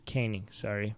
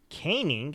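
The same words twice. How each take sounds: First: "Caning" said firmly with long a, kay-ning, softer; corrected word. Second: "Caning?" tried out with long a, as kay-ning, asking; testing a word. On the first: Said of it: "you're right, guys". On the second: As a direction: sound out "Caning?" unsure, rising. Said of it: "Is that how you say it?". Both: Shown as a demonstration.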